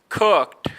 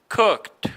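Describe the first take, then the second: No difference in how they are said.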